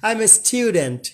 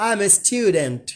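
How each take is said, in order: No difference in how they are said.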